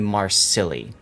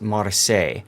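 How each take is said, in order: First: The name ends sounding like the word silly. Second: The name ends sounding like the word say. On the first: It mocks the ship as silly. "we like to call this ship the Marsilli" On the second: It is the proper name of the ship. "it's pronounced Marseille"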